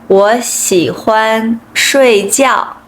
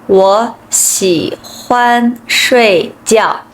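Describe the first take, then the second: The two takes are said the same way.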